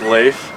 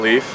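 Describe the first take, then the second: First: The name does not sound like 'leaf'. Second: The name sounds like the word 'leaf'. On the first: The speaker calls it right. "it's Leif" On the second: The speaker calls it wrong. "my name's not Leaf"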